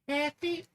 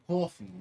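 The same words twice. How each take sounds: First: It is said without a New York accent. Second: It is said with a New York accent. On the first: "other people be like oh coffee" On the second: "from New York we say coffee"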